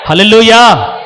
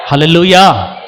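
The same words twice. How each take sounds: First: hallelujah cried out loud; shouted hallelujah. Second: Said in the usual way. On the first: Real, not acted. Preacher rousing the church with a loud hallelujah. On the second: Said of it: "hallelujah shout".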